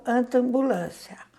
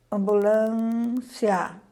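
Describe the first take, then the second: First: Slow demo word. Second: Ambulância drawn out very slowly; slow demo word. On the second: Teacher reads ambulância aloud for the class, very slow. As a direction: stretch ambulância syllable by syllable. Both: Shown as a demonstration. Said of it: "Ao pronunciarmos essas palavras".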